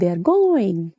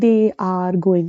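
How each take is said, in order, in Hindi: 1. They और are मिलकर एक ही सिलेबल में बोले जाते हैं। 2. They और are अलग-अलग शब्दों की तरह बोले जाते हैं। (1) "वो कैसे बोलते हैं" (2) "वो ऐसे थोड़ी ना बोलेंगे"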